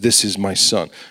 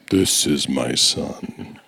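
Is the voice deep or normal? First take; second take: normal; deep. First: It is said in his normal voice. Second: It is said in a deep voice.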